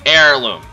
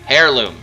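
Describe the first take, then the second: First: The word begins with a silent H. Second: The word begins with a sounded H. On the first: The speaker calls it right. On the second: The speaker calls it wrong.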